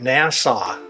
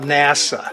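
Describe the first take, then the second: First: The word sounds like the place name Nassau. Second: The word sounds like the usual space agency name. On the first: It sounds like a place in the Bahamas. The speaker calls it wrong. "You keep pronouncing it NASA, ... people are thinking we're talking about the Bahamas" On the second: It names the space agency. The speaker calls it right. "We're talking about NASA"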